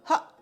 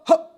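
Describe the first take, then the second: First: It is said lightly, at normal speaking level. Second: It is said heavily, with extra force. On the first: The speaker calls it right. "Just hot" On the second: The speaker calls it wrong. "You don't need to start going hot"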